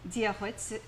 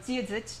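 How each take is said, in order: First: DIA GLITZ slowly, like "dia gwits"; G-W pronunciation. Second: DIA DITCH slowly, with a ch ending; slow northern Irish DITCH, starting on D; northern pronunciation. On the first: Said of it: "sort of like a G W sort of sound". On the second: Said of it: "and that's more northern". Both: Shown as a demonstration.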